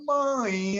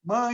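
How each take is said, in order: First: The word is drawn out slowly. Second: The word is said short and quick. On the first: "you go to Bahia, they say ... there is like a, a slowdown" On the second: "in Rio ... we say mãe"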